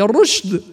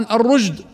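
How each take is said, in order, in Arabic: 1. الصوت بعد حرف الراء شين مهموسة. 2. الصوت بعد حرف الراء جيم مجهورة. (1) "هي" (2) "فيحولها جيما وتقرأ خطأ"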